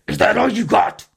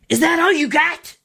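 First: The voice is raspy and rough. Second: The voice is plain and clear.

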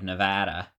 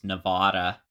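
First: It is said the local Western way. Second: It is said the East Coast way. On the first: The speaker is a local. The speaker calls it right. "instead of Nevada" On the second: The speaker comes from the East Coast. The speaker calls it wrong. "an elite East Coaster that says Nevada"

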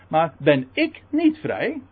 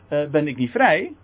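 First: The stress falls on the word ik. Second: The stress falls on the word vrij. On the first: If you are free, then surely I am free too. The speaker calls it right. "moet je de klemtoon goed leggen" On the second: He asks whether he is free at all. The speaker calls it wrong. "het idee is niet van"

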